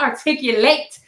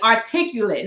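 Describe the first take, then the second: First: The word ends with a full 'late' sound. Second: The word ends with a short 'lit' sound. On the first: The speaker calls it wrong. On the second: The speaker calls it right. "it had an L I T on the end"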